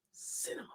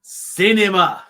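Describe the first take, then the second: First: Breathy unvoiced whisper of the word; whispered verdict. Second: Cinema stretched slow and louder, falling at the end; drawn-out proclamation. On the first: Co-host whispers his mock verdict on WrestleMania, whispered. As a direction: hush it like a secret. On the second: Pretend. Co-host trolls his partner about the main event, drawn-out and louder. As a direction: savour Cinema like a film critic.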